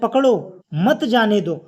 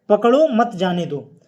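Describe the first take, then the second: First: The phrase is split by a pause inside it. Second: The whole phrase is said without any pause. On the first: The meaning becomes clear. "अर्थ स्पष्ट हो गया।" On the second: The meaning is unclear. "तो यहां पर पूरा एक साथ कहा गया।"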